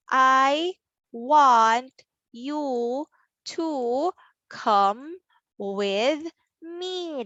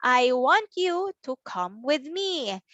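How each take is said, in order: First: Slow, each word drawn out and separate; word-by-word reading. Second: The sentence joined up, still measured; whole-sentence reading. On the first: Teacher reads the sentence for children, word by word. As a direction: read it one word at a time. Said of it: "read the sentence". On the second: Teacher repeats the whole sentence, joined up. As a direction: read it as one careful phrase. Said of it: "That's our sentence". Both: Shown as a demonstration.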